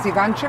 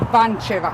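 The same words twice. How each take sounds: First: The name is said at a normal pace. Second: The name is said slowly and carefully.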